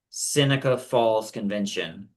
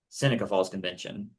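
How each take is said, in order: First: It is said slowly. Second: It is said fast.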